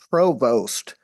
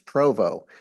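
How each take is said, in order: First: It is said the English way, as spelled. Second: It is said the French way, without the ending. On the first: "it's spelled Provost" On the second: "the French Canadian pronunciation is Provo"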